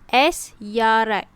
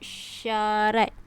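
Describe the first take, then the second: First: The s is said apart from the y. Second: The s and y blend into one sound. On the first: The speaker calls it wrong. "Tak boleh. Salah" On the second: The speaker calls it right. "S Y tu kita sebut sekali"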